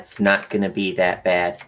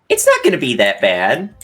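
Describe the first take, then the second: First: It sounds flat and unconvincing. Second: It sounds sincere and convinced.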